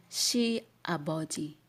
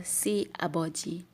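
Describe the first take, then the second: First: SHE 아버지 opening on sh; correct SH sound. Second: SI 아버지 with a plain s, like "see"; wrong S sound. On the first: Teacher giving the right reading, SH sound. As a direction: say "she" with an sh, not a plain s. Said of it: "you can say". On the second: Teacher showing what is written, plain S reading. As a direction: start "si" on a hissed s without any h. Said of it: "Not si 아버지". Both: Shown as a demonstration.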